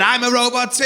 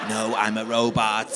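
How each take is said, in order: First: High, lifted, eager outburst; mock-thrilled high-pitched reply; excited friend. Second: Slow robot monotone; measured deadpan android. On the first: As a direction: join in loudly and delightedly. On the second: Acted. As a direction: declare it stiffly, like a robot. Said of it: "I can't keep talking like a robot".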